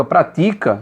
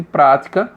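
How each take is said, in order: First: "pratica" stressed on TI, the middle syllable; stress on second syllable. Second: "prática" stressed on PRÁ, the first syllable. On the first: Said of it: "muda o sentido". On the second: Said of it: "Se você tirar acento de prática". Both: Shown as a demonstration.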